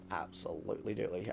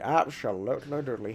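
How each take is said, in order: First: Low muttered absolutely doodly, softer; mumbled. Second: Said in the usual way. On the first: Shown as a demonstration. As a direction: toss off absolutely doodly under the breath.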